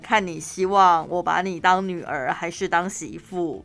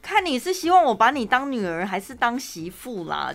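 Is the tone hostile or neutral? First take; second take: neutral; hostile. First: It is said flatly, without emotion. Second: It sounds like a nasty, threatening mother-in-law.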